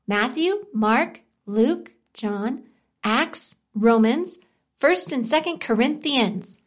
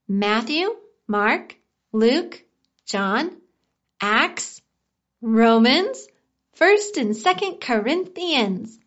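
First: The list is recited at a faster pace. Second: The list is recited at a slower pace.

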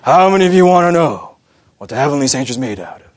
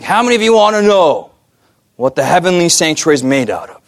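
First: It is said in a deep, husky voice. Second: It is said in the speaker's normal voice.

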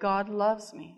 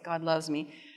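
First: It is said strongly, with emphasis. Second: It is said in a weak, pitiful voice.

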